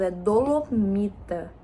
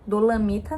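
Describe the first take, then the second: First: Dolomita, do-lo-MI-ta, with o; slow, careful dolomita with o; corrected pronunciation. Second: Dolamita, with a in the middle syllable; mispronounced. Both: Shown as a demonstration. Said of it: "acho que eu falei errado".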